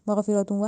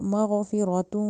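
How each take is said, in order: First: The phrase is said quickly and rushed. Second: The phrase is said slowly and carefully. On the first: The speaker calls it wrong. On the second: The speaker calls it right.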